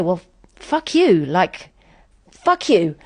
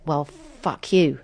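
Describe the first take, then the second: First: Retold comeback, voice pushed up; angry retort. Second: Slow, muttered-under-the-breath defiance; the thought, held back; slow inward retort; inner fuck you. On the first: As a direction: lash out at the friend. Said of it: "And I do say". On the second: Retold or imitated. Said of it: "started feeling a bit".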